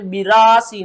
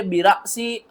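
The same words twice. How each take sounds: First: "बिरासी" with the रा drawn long; wrong reading demo. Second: "बिरासी" with रा cut short by a glottal catch; jerk on hamza. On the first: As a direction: stretch रा in "बिरासी", no hamza catch. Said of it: "बिरासी नहीं पढ़ना". ("बिरासी" में रा को खींचकर, बिना झटके) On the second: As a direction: snap रा shut before सी in "बिरासी". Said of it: "झटके के साथ पढ़ते हैं". ("बिरासी" में हमज़ा पर झटका) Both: Shown as a demonstration.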